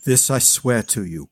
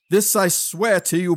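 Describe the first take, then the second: First: Solemn oath. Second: Cried oath. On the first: Acted. Kneeling oath to dead king. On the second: A narrator's reading. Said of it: "he cried aloud".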